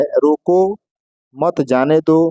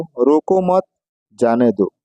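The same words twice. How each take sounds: First: "रोको" rising, pause, then "मत जाने दो"; pause after रोको. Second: "रोको मत" together, pause, low "जाने दो"; pause after मत. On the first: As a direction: hold the comma right after रोको. ("रोको" के बाद विराम) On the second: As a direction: break after मत and drop on जाने दो. ("मत" के बाद विराम) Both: Shown as a demonstration. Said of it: "जिससे उस वाक्य का अर्थ बदल गया".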